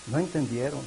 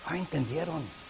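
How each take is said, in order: First: "No" lifted with a rise, then "entendieron" said softly; stressed no. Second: "entendieron" falling and held, the line much softer; stressed entendieron. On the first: The preacher repeating the point to the congregation, stress on "No". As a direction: hit "No" with a rising tune. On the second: The preacher lamenting to the congregation, stress on "entendieron". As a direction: lean on "entendieron" and let it drop. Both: Shown as a demonstration.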